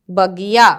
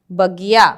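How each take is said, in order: Both takes have the same delivery.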